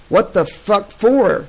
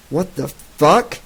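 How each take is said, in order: First: Higher, slow angry demand. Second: A mild, growing bristle; bristling. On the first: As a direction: push the anger up and drag it out. Soldier grows angrier. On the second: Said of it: "bristling in her grasp". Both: Acted.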